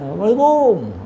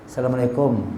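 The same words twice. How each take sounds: First: The greeting is called out loudly. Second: The greeting is said quietly and gently. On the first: The person is called from far away. The speaker calls it wrong. "jangan jarak seratus meter" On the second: The person is greeted from close by. The speaker calls it right. "dekat baru pelan-pelan aja"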